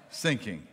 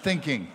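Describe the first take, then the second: First: "sinking" with a clear initial s; "th" turned to "s". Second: Said in the usual way. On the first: Shown as a demonstration. Explaining the officer's misheard word, "sinking" with an s for th. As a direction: say "sinking", the German-accented "thinking". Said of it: "Not thinking".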